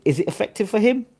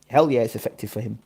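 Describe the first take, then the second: First: Pitched high, rising on HIM; rhetorical question. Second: HELL stressed, dropping low to a falling end; emphatic answer. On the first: Boxing streamer challenging viewers, rhetorical question rising on "him". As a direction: ask it high, lifting up on "him". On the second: Boxing streamer answering his own question, low emphatic "hell yeah". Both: Real, not acted.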